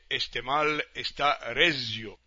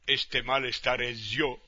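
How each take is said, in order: First: The last word is stressed on its second-to-last syllable. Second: The last word is stressed on its final syllable. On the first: This is how it is normally said. "en vez de" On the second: This is how the popular song says it. "el desplazamiento del acento tónico... se convierte en una palabra aguda"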